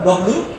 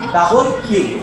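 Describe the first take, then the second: First: The letter name is squeezed into short 'dobliu'. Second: The letter name is said fully as 'double u'. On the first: The speaker calls it wrong. "আমরা বলতাম ডব্লিউ" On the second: The speaker calls it right. "এটা উচ্চারণ হচ্ছে ডাবল ইউ"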